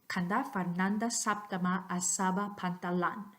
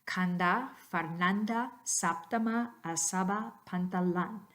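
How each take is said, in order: First: It is said at natural speed. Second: It is said slowly and carefully.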